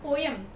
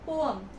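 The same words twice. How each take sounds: First: The E is sounded as a clear vowel. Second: The E is silent, like po-um. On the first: The speaker calls it wrong. "It's not poem" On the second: The speaker calls it right. "E is silent"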